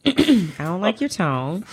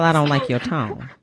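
First: Slower, slightly raised polite objection; bass taken out. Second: Firm objection with bass in it. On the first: Co-host restating the objection after being corrected, bass taken out. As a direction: lift it and draw it out politely. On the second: Co-host objecting to the host's tone, bass in the voice. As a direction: put some bass into a firm rebuke. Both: Real, not acted. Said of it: "take that bass out of your voice".

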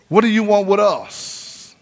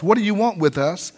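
First: Slow, with "us" drawn out at the end; stress on US. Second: Said in the usual way. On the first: Shown as a demonstration. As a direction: lean on "us" to point out the plural. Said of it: "That sounds like more than one".

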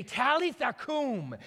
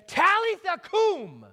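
First: Quoted gently, a touch higher, slowed; just recall the words, not a full call; softer quoting. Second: Put-on high, loud Aramaic call to a dead girl. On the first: Retold or imitated. Preacher quoting Jesus to the congregation, understated. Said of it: "raise a dead girl up and say". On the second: Jesus calling loudly to the dead girl in Aramaic. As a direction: call her back to life in Aramaic, ringing out. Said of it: "he calls out to her".

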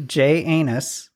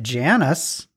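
First: "J Anus" slowly split, letter J then anus; joke pronunciation fix. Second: "Janus" as one word, like Janice; usual name pronunciation. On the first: Shown as a demonstration. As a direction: correct it to "J Anus", slow and separated. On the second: Real, not acted. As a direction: say "Janus" as JAN-us, run together. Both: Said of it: "I'm gonna fix it for you".

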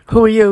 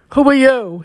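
First: Mildly startled, louder question; understated startled demand. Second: Louder, higher demand with slight catch; raised question, hint of a catching throat. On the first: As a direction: ask it with a touch of alarm, louder. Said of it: "he asked, startled". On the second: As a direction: repeat it more insistently, raised voice. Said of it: "his voice catching in his throat". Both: A narrator's reading.

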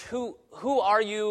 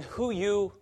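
First: Higher, slow broken-English question. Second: Higher, bare broken-English question. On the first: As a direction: imitate a wary learner of English, drawn out. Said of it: "they ask me sometimes in broken English". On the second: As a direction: imitate a beginner's very broken English. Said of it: "if it's very broken". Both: Retold or imitated.

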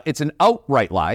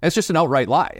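First: A light Canadian "outright lie", barely shifted; mild Canadian accent, stressing outright. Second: Said in the usual way. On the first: Shown as a demonstration. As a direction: lean on "outright" with a Canadian lilt. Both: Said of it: "that's with my Canadian accent".

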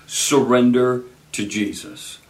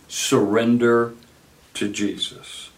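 First: Said in the usual way. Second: "Surrender to Jesus" said slower, pause after "Surrender", "Jesus" fading very soft; slow soft repeat. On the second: Shown as a demonstration. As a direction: linger on "Surrender", pause, then let "to Jesus" fall to a hush. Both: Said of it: "Let me say it again".

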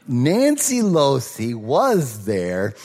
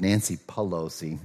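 First: Nancy Losi slow, louder, pressed home; slow down and lean on Nancy Losi as the right name; corrected name. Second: Nancy Pelosi said as a laughing slip for Losi; name slip retold. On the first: Shown as a demonstration. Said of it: "Nancy Pelosi was not there". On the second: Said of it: "when I said her name".

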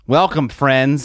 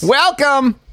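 First: Slow, hushed documentary welcome; a hint of a British wildlife narrator; lightly voiced nature host; mock Attenborough voice. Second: Much higher, drawn-out echo of the welcome; high mocking echo of Welcome. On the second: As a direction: parrot the greeting up high. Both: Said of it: "my best David Attenborough accent".

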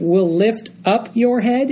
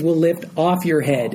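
First: Said in the usual way. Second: "off" said firmly; stress on "off". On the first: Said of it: "Instead of". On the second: Shown as a demonstration. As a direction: lean on the word "off". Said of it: "it says".

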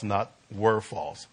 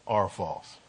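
First: Said in the usual way. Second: "are false" with "are" set firmly against "were"; weight the present-tense "are"; quiet, firm correction on "are false"; stress on are. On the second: Shown as a demonstration. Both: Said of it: "So I say present tense".

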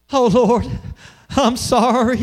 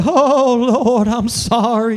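First: A hint of a pleading prayer; mock churchy apology. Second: Louder, higher hammed-up weepy plea; mock emotional cry. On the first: Pastor mimics adults apologizing to God, lightly voiced. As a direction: toss off a quick sorry to God. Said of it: "What do we say?". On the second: Pastor parodies a tearful altar apology, hammed-up cry. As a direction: overplay the tearful churchy sorry. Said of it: "emotional cry".

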